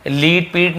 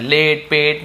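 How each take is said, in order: First: लीट पीट with a long ee vowel, the wrong way. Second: लेट, पेट with a short e vowel as in let; correct short e. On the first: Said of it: "लीट पीट नहीं बोल रहे हम". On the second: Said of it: "ए ए का ध्वनि निकल रहा है". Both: Shown as a demonstration.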